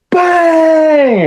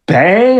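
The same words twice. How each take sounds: First: Much higher, loud Bang shout; shouted catchphrase. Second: A lightly voiced Bang, higher, rising; catchphrase imitation. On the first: Retold or imitated. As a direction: belt the Bang like the wrestler. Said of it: "he goes". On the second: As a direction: toss off the catchphrase casually. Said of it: "And he goes, like".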